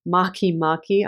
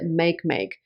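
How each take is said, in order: First: The name is pronounced differently from its spelling. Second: The name is pronounced the way it is spelled. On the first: The speaker calls it right. "but it's actually Makee Makee" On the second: The speaker calls it wrong. "I pronounced it make make because that's kind of how it's spelt"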